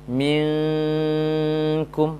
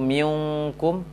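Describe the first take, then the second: First: The nasal hum is held before the k. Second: The nasal hum is skipped, going straight to k. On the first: The speaker calls it right. "Selesaikan dengung untuk rokat yang tipis baru kaf dhammah" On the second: The speaker calls it wrong. "jangan langsung minkum"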